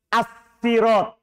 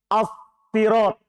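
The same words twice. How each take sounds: First: The first s is light and thin. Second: The first s is heavy and thick. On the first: "Boleh dibaca dengan sin. Jadi baca tipis" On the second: "Boleh pakai sod, dibaca tebal"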